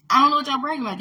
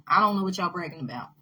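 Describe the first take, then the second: First: Higher and louder, near a shout; loud exasperated repeat. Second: Said in the usual way. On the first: Real, not acted. Repeating her point to viewers, louder and exasperated. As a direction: throw the line back at them with rising heat.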